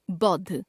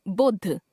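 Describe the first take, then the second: First: Said in the usual way. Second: बुद्ध as "boddh" with closed o; mispronounced au. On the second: Shown as a demonstration. Teacher showing a common error, बुद्ध said as "boddh". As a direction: put "o" for "au", बुद्ध sounding "boddh". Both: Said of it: "ओ, औ संबंधी अशुद्धियां".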